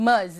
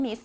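First: "miss" said as muhz, ending in voiced z. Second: "miss" with short i and hissed s; Miss, not Ms. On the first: Teacher showing students how Ms. is read, "miss" as muhz. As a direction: open the vowel to uh and buzz the final z in "miss". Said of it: "ออกเสียงเป็นตัว z". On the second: Teacher showing how Ms. is not read, "miss" with an s. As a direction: say "miss" as mis, ending in s. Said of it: "ไม่ได้อ่านว่า miss". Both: Shown as a demonstration.

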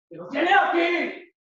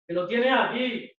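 First: High, loud, drawn-out yell; slow, heated holler; angry shout. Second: Said in the usual way. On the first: Acted. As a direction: shout the repeat in exasperation. Acted quarrel, shouted repeat.

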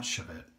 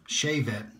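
First: "shavette" said shuh-VET, with a weak first vowel; mistaken pronunciation. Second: "Shavette" said SHAY-vet, with a long "shave" vowel; corrected pronunciation. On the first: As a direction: reduce the start of "shavette" to "shuh". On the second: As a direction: say "Shavette" starting like the word shave. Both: Shown as a demonstration. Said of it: "not shavette".

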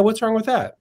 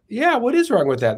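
First: Higher-pitched retold challenge; casual challenge. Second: High-pitched stress on "is"; conceding echo. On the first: Childhood friend challenges him on abortion, casual challenge. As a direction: toss out a friend's rhetorical question. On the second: Retold or imitated. Younger self comes round to his friend's view, stressing "is". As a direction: lean on "is", wondering it back as a concession. Echoes friend, persuaded, in retold debate.

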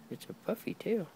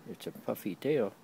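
First: Much higher, sing-song praise of the tail; high cooing dog talk. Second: Said in the usual way. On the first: Real, not acted. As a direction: coo it up high like praising a puppy.

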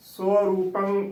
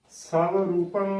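First: ਸਵ ਰੂਪੰ with "so" in place of "sav"; ਸਵ ਰੂਪੰ with a rounded first syllable; correct pronunciation demo. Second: ਸਵ ਰੂਪੰ with "sav" for "so"; ਸਵ ਰੂਪੰ opening on an "a" and a v; mispronunciation demo. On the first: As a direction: say ਸਵ ਰੂਪੰ as "so-roopang". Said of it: "ਉਚਾਰਨ ਕਰਨਾ ਹੈ". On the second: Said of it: "ਉਚਾਰਨ ਨਹੀਂ ਕਰਨਾ". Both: Shown as a demonstration.

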